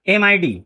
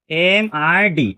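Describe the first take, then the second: First: Said in the usual way. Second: Slow, drawn-out letters एम, आई, डी; letter-by-letter teaching pace for एम आई डी; spelled out slowly. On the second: Shown as a demonstration. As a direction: stretch each letter of एम आई डी apart.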